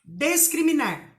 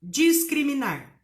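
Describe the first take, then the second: First: Discriminar said with des-, des-cri-mi-nar. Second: Discriminar said with dji-, slowly: dji-scri-mi-nar; with dis. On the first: (pronúncia des-criminar) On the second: (pronúncia dji-scriminar) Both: Shown as a demonstration. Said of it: "o discriminar e o discriminar".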